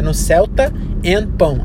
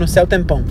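First: The phrase is said slowly, each word distinct. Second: The phrase is said fast, words running together. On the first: The name is about a car and bread. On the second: The name sounds like there is bread in heaven.

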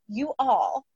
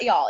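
First: The two words are said separately and clearly. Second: The two words are run together into one syllable. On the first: The speaker calls it right. "enunciating that one time" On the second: The speaker calls it wrong. "a lazy way of saying you all"

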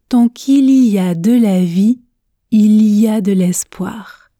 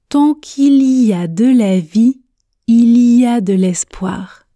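No difference in how they are said.

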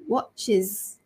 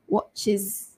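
The two takes are said the same way.

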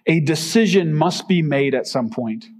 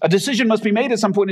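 First: It is read at a normal pace. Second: It is read at a faster pace.

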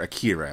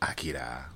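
First: The name is pronounced in a westernized way. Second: The name is pronounced closer to Japanese.

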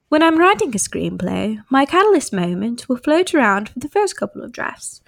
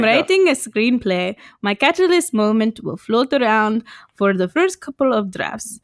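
First: It is read in the speaker's own accent. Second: It is read in a put-on Indian accent.

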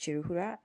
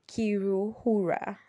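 First: The name starts with a 'ch' sound. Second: The name starts with a 'k' sound. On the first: It is said the way locals say it. The speaker calls it right. "So the district is Chiruhura" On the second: It is read the way it is spelled. The speaker calls it wrong. "if you're reading it according to the way it's spelled, it's literally, it's Kiruhura"

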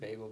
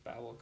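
First: The first vowel sounds like 'bay'. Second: The first vowel sounds like 'babble'. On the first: The speaker calls it wrong. "I always said Babel" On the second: The speaker calls it right. "I think it's Babel because like, they're babbling"

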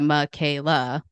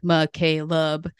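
First: The name ends with a plain vowel sound. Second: The name ends with an added b sound. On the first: The speaker calls it right. "instead of" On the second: The speaker calls it wrong. "He puts a B at the sound of my name"

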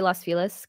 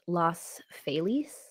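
First: The name has a more English-sounding pronunciation. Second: The name has a less English-sounding pronunciation. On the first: "that seems to be like the more English pronunciation" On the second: "apparently it's supposed to be pronounced"

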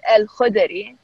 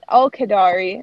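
First: The name is said with throaty Arabic sounds. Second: The name is said with American English sounds. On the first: The speaker calls it right. "the real version of it is" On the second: The speaker calls it wrong. "the Americanized version of it is"

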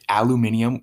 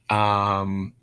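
First: It is said the British way. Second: It is said the American way. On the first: The speaker calls it wrong. "I don't know if it's like a British way of saying that" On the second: The speaker calls it right. "that's just un-American in my opinion"

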